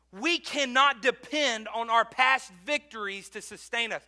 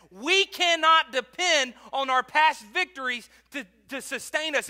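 First: Said in the usual way. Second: Emphatic repeat. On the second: Shown as a demonstration. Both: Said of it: "Please listen to that".

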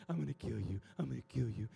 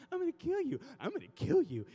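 First: Coaxing threat. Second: Louder, swooping pet-talk threat; loud coaxing threat with leaping pitch; sing-song mock threat. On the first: Retold or imitated. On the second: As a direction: swoop up high on "kill" as if cooing to a dog.

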